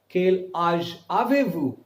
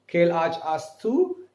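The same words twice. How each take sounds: First: Slow, careful "Quel âge avez-vous?" with vous; formal French question. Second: Slow "Quel âge as-tu?" with a rising end; informal French question. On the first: Teacher modelling the respectful form for students, slow and clear. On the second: Teacher modelling the informal form for students, slow and rising. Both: Shown as a demonstration. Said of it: "Non-respective, respective".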